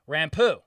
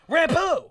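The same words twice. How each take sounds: First: The word is said calmly. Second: The word is said angrily.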